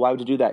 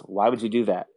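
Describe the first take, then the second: First: It sounds friendly and curious. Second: It sounds disapproving and discouraging.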